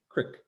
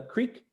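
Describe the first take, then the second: First: Crick with a short I, rhyming with "brick"; short vowel in crick instead of long EE; regional "crick" pronunciation. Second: Said in the usual way. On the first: Shown as a demonstration. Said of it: "where you say crick". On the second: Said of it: "This is how I would say it".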